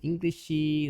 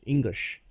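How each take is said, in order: First: An extra vowel is added after the final sh. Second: The word ends cleanly on the sh sound. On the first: The speaker calls it wrong. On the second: The speaker calls it right.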